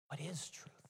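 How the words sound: The question is asked with a longing tone. The asker yearns to find truth. "Did he ask longingly?"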